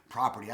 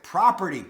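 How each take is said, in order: First: Said in the usual way. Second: "property" sounded out clearly after a slip; careful pronunciation. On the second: Shown as a demonstration. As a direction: enunciate "property" with care. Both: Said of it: "my, my accent".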